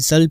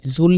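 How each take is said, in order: First: The word is said with an 'a' vowel. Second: The word is said with an 'u' vowel. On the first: The speaker calls it right. "ज़ल पढ़ना है" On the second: The speaker calls it wrong. "ज़ुल नहीं पढ़ना आपने"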